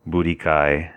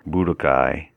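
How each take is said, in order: First: "Budikai" with a flat "di" in the middle; wrong pronunciation. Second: "Budokai" as bu-dō-kai, with a clear "do" and a light rise at the end; correct pronunciation. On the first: Fan explaining the wrong way, "Budikai" said with a short middle vowel. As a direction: say "Budikai" the mangled American way, with no long o. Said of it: "how you don't say it is". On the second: Translator correcting fans, saying "Budokai" as bu-do-kai. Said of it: "how you don't say it is Budikai". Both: Shown as a demonstration.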